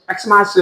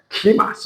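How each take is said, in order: First: The word begins with an 'eks' sound. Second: The word begins with a 'kee' sound. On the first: The speaker calls it wrong. "엑스마스 이렇게 하면 안 돼요" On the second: The speaker calls it right. "원래는 키마스 이렇게 돼요"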